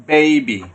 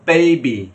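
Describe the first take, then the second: Both takes have the same delivery.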